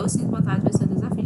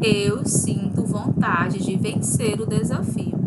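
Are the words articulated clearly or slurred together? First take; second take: slurred; clearly. First: The words are swallowed and run together. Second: Every word is pronounced clearly and fully. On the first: The speaker calls it wrong. "tende a ler engolindo" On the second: The speaker calls it right. "leia pronunciando as palavras, sem engoli-las"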